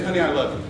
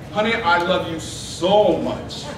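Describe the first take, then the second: First: Said in the usual way. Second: "so" drawn out slowly; stress on SO. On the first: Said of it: "That's fine". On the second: Shown as a demonstration. Husband telling his wife he loves her, stress on SO. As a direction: stretch "so" to deepen the declaration. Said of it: "But what if I say".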